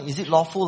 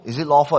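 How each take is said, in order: First: It is asked in a musing, scholarly voice. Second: It is asked as a plain, honest question.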